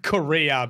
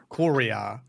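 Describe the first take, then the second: First: Said in the usual way. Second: "Korea" said with more of an accent. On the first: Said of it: "It's a bit like Korea, but with". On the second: Shown as a demonstration. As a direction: put more accent on "Korea", as the name is said in game. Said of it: "but with more of an accent".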